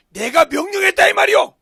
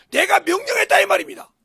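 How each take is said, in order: First: Bold shout. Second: Bold declaration. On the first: Preacher voices David's bold confession. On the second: Repeats David's confession. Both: Acted.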